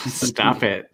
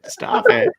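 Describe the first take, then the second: First: Said in the usual way. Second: High squeaky mock protest; playful squeal. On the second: Real, not acted. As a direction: squeal it like you're flustered. Teasing a co-host, says it twice.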